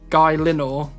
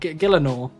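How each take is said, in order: First: The word begins with a 'guy' sound. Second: The word begins with a 'gil' sound. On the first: The speaker calls it wrong. "I used to say" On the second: The speaker calls it right. "instead of"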